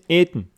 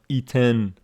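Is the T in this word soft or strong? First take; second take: soft; strong. First: The T sound is soft and weak. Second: The T sound is strong and clear. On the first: The speaker calls it right. "this one is eaten ... This T is not strongly pronounced" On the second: The speaker calls it wrong. "It's not eaten"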